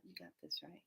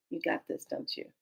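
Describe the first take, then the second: First: Much lower, barely audible voice; tiny low reassurance under the breath; hushed reply. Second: Low, very soft murmur; hushed, confiding check-in; quiet aside. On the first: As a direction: answer in a deep, very soft murmur. Answering voice from the heavens. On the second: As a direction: murmur it privately up to the heavens. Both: Retold or imitated.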